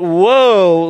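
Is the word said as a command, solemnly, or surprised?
solemnly. It is said gravely, like a warning. It warns that someone is in trouble. The speaker calls it right. "but woe, like you're in trouble"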